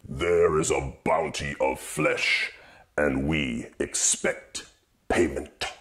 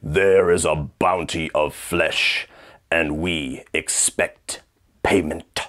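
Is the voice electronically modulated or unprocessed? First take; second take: modulated; unprocessed. First: The voice has electronic modulation effects added. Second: The voice is plain, with no added effects. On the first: "one of them with modulation effects" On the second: "me trying to sound like Doug Bradley"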